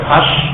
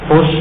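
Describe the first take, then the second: First: The vowel after the first consonant is a. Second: The vowel after the first consonant is u. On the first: "bisa dibaca fathah"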